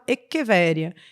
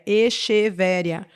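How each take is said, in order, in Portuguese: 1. O 'ch' não é pronunciado como um som de 'sh'. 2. O 'ch' é pronunciado como um som de 'sh'. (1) "na verdade, pronunciado Echeveria" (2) "o vendedor na loja vai chamar uma determinada planta de Echeveria ... vai achar, inclusive, que escreve com X"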